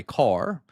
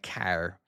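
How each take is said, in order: First: Car with an open back "ah" vowel; corrected pronunciation. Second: Car with the vowel of "cat", nearly "care"; Irish pronunciation. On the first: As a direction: say car with a rounded-back "ar", not "care". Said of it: "sorry, car". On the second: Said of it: "like car". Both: Shown as a demonstration.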